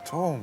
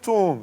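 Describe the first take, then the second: First: It is said in a soft, coaxing tone. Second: It is said in a puzzled, questioning tone. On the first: The speaker wants to make a good impression. "잘 보고 싶으면은" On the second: The speaker did not understand something. "못 알아들으면"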